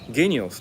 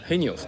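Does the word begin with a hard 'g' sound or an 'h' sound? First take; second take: hard g; h. First: The word begins with a hard 'g' sound. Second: The word begins with an 'h' sound. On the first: The speaker calls it wrong. "みんなゲニオスって読まないですよね" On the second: The speaker calls it right. "ヘニオスって呼びますよね"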